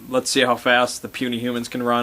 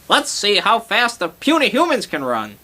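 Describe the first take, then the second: First: It is said in a deep, ominous voice. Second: It is said in a comical Gulk voice.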